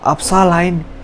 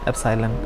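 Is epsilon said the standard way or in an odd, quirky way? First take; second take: quirky; standard. First: The word is pronounced in an odd, quirky way. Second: The word is pronounced the ordinary, standard way. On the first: This is the teacher's own way of saying it. "तो इस तरीके से उनका accent था बोलने का" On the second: This is how the term is normally said. "उसे एप्साइलन कहते हैं"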